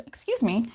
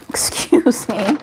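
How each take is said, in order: First: Said in the usual way. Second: A breathy, startled whisper. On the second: Real, not acted. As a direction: hush it out in surprise. Startled by something on screen.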